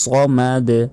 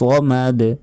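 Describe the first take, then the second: First: The final consonant ends with a bounce. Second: The final consonant ends with a bounce.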